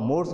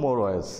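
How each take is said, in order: First: The word is said as one syllable. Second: The word is said as two syllables. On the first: The speaker calls it wrong. "তোমরা মোরস বলবা, সেটা কিন্তু সঠিক নয়।" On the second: The speaker calls it right. "এটা হবে সঠিক উচ্চারণ হবে মোর ওয়েস"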